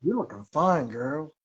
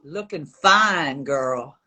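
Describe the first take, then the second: First: Quick, barely seductive take; half-hearted sultry voice. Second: Deep, slow seductive line; sultry voice. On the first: Pretend. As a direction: say it almost plain, a touch flirty. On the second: Shown as a demonstration. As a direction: drag it out low and husky. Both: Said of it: "in the most sultry voice you can".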